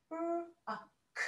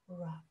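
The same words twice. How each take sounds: First: "R-O-K" as three separate letter sounds, r, o, k; sounded out. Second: Said in the usual way. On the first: Shown as a demonstration. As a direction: segment "R-O-K" sound by sound, not letter names. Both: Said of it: "first part of the word is rock".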